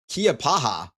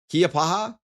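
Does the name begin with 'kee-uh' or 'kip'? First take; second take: kee-uh; kee-uh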